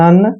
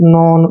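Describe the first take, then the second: First: The vowel sounds like 'uh'. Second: The vowel sounds like 'o'. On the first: The speaker calls it right. "नन पढ़ना है" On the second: The speaker calls it wrong. "ऐसे नहीं पढ़ेंगे"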